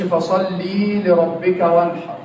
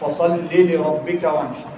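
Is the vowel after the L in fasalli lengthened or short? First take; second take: lengthened; short. First: The kasra is stretched into a long ee sound. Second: The kasra stays a short i sound. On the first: The speaker calls it wrong. "ما تشبعش الحركة عشان ما تولدش حرف الايه؟ الياء. ما تقولش" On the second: The speaker calls it right. "قول"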